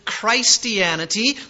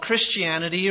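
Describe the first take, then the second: First: The first syllable sounds like 'Christ'. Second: The first syllable sounds like 'kris'.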